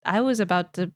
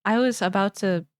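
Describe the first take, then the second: No difference in how they are said.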